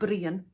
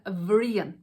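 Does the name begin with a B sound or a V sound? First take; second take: B sound; V sound. First: The name begins with a B sound. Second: The name begins with a V sound. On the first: "changes the pronunciation from Brian" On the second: "to Vrian"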